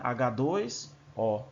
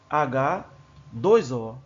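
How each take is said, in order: First: The word 'dois' is grouped with the H. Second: The word 'dois' is grouped with the O. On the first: The molecule has two hydrogens and one oxygen. The speaker calls it right. "da forma adequada" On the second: The molecule has one hydrogen and two oxygens. The speaker calls it wrong. "dá a entender que tem um H e dois O, da forma que certas pessoas pronunciam"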